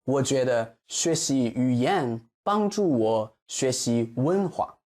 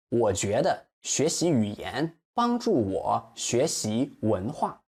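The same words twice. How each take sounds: First: Said in the usual way. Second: 文化 slowed, weight on 化; slow model with final stress. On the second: Shown as a demonstration. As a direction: slowly stress the end of 文化. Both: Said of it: "The stress 文化".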